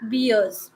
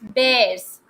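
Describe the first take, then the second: First: The vowel sounds like the one in 'ear'. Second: The vowel sounds like the one in 'air'. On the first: The speaker calls it wrong. "not beers. Many people they pronounce it as beers" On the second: The speaker calls it right. "Then this is bears"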